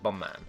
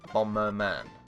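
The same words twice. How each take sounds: First: The word is clipped, not fully pronounced. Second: The word is pronounced fully and clearly. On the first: The speaker calls it wrong. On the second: The speaker calls it right.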